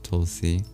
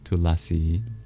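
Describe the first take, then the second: First: The vowel between L and S is dropped. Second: The vowel between L and S is kept. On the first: This is the Hindi form of the name. "As in Hindi and other Schwa deleted Indian languages, it's pronounced Tulsi" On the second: This is the original Sanskrit form of the name. "But in Sanskrit, it's Tulasi"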